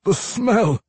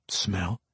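First: High, loud, anguished dwarf; loud high outburst of craving; tormented dwarf vampire. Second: Softly puzzled, rising at the end; puzzled echo. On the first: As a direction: blurt it out in torment. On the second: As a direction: quietly query the word back. Puzzled question echoing the word. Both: A narrator's reading.

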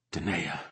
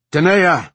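First: Low, soft utterance of a name; quiet realisation. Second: Loud, high call of a name; shout. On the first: Commander thinking of her second, quiet and low. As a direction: say the name softly, almost to yourself. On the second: Commander calling her second across the camp, shouting. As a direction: shout to get her attention. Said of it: "she shouted". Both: A narrator's reading.

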